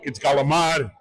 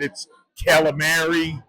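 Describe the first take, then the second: First: It is said with a New York pronunciation. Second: It is said with an Americanized pronunciation.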